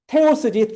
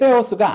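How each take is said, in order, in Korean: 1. 거센 t 소리로 시작해요. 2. 부드러운 th 소리로 시작해요. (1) "결론부터 말하자면은 테오스지" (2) "테오스가 아니다"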